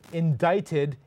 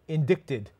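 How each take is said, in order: First: The c is silent: in-DITE-ed. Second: The c is pronounced: in-DICT-ed. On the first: The speaker calls it right. "why is it pronounced indicted" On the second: The speaker calls it wrong. "and not indicted"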